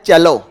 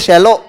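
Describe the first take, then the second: First: The word begins with a 'ch' sound. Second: The word begins with a 'sh' sound. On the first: The speaker calls it right. "ये है चेलो" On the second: The speaker calls it wrong. "ये शैलो नहीं है"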